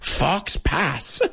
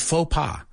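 First: The x and s consonants are pronounced. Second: The x and s consonants are silent. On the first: The speaker calls it wrong. "at least we don't say fox pass" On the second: The speaker calls it right. "this one is faux pas"

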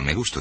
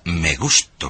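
First: It is said flatly, without feeling. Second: It is said with strong, warm feeling.

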